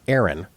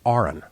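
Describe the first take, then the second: First: The name begins like the word 'air'. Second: The name begins like the letter 'R'. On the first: The speaker calls it wrong. "It's not Aaron" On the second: The speaker calls it right. "it's Aaron, right? ... pronounced like registered nurse"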